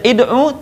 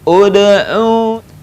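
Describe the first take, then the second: First: The word begins with an i vowel. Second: The word begins with an u vowel. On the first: The speaker calls it wrong. "tidak dibaca id'u" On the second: The speaker calls it right. "maka baca dengan U"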